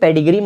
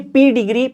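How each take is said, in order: First: The first syllable sounds like 'peh'. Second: The first syllable sounds like 'pee'. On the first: The speaker calls it wrong. "इसे पेडिग्री मत कहना" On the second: The speaker calls it right. "ये पी डिग्री pronounce होता है"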